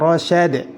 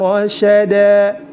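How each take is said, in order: First: The word ends in d. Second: The word ends in a long a. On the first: The speaker calls it wrong. "Tidak boleh dibaca" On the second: The speaker calls it right. "tetap dibaca fathah dan dipanjangkan dua harokat"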